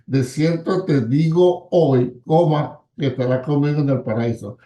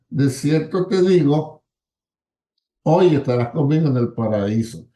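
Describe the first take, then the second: First: The pause comes after the word hoy. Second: The pause comes before the word hoy.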